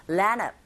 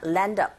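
First: "land of" said as "lan-uv" with no d; dropped d. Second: "land up" linked as "lan-duv", d lightly sounded; light d linking. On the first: Teacher shows one possible sound, "land of" with d dropped. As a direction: drop the d and link "land of". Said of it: "아예 안 들리거나". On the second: Teacher shows the other possible sound, "land up" with faint d. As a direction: join "land up" keeping a faint d. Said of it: "또는 이렇게 들리거나". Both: Shown as a demonstration.

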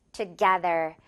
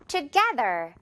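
First: Together with the to said too fully; heavy to. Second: Together with a light, quick to and stressed GE. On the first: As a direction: overstress the to in together. (together의 to를 너무 세게) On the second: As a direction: keep the to weak, tuh-GE-ther. (together의 to는 가볍게, 깨에 강세) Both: Shown as a demonstration. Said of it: "together라기보다는".

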